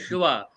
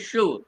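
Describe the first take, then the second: First: The word ends with an added final vowel sound. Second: The word ends on the consonant, no final vowel. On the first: The speaker calls it wrong. "we don't say Shiva" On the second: The speaker calls it right. "we say Shiv"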